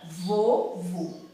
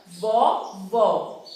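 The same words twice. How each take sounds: First: "vovô" with a closed, rounded final ô; closed vowel. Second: "vovó" with a wide-open final ó; open vowel. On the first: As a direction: stretch "vovô" slowly, closing the last vowel. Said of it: "palavras que tem o som fechado". ("vovô" com o ô final bem fechado) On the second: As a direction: stretch "vovó" slowly, opening the last vowel. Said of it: "palavras que tem o som aberto". ("vovó" com o ó final bem aberto) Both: Shown as a demonstration.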